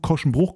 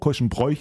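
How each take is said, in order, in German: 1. Die letzte Silbe wird mit einem langen oo-Vokal gesprochen. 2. Die letzte Silbe wird mit einem oy-Vokal gesprochen. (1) "offizielle Aussprache ist Korschenbruch" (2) "manche sagen Bräuch"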